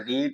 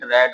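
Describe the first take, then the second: First: The vowel is a long ee sound. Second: The vowel is a short e sound. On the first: It is the present (first) form of the verb. "Pronunciation में जरूर अंतर होता है।" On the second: It is the past or past participle form of the verb. "रेड पढ़ते हैं तो यहाँ spelling same है"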